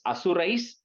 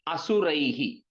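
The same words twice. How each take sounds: First: Asurais closed on "s" instead of "hi"; s ending. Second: Asuraihi with the final "hi" sounded out; visarga ending. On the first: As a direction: turn the ending of Asurais into "-ais". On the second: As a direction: end Asuraihi on a breathed "hi". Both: Shown as a demonstration. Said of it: "you put a is".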